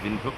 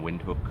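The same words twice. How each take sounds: First: The name begins with a V sound. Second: The name begins with a W sound. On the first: This is the German way of saying it. "the W is usually pronounced with a V sound" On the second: This is how English speakers say it. "generally you pronounce it with a W sound"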